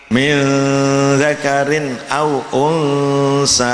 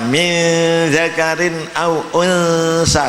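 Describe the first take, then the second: First: The nasal is plain with relaxed lips. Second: The nasal is exaggerated with strained lips. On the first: The speaker calls it right. "cukup biasa, itu namanya sudah tarkik" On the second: The speaker calls it wrong. "tidak usah dimeringiskan, tidak usah seperti bedes"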